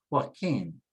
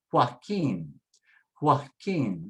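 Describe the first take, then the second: First: Joaquin as a quick joined hwah-KEEN; run together fast. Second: Joaquin as hwah-KEEN in two clear beats; W sound. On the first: Teacher puts it together real fast, joined up. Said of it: "put it together real fast". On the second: Teacher puts the parts together for learners, W sound. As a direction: say Joaquin with HW at the start. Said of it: "It sounds like a W sound". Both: Shown as a demonstration.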